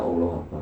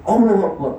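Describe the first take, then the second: First: It is said softly and calmly. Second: It is said loudly, almost shouted.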